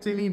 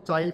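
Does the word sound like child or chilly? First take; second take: chilly; child. First: It is said with a short i and ee ending. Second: It is said with a long i and a d ending. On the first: The speaker calls it right. "हम इसको चिली बोलते हैं" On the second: The speaker calls it wrong. "हम इसको चाइल्ड pronounce करें, but गलत"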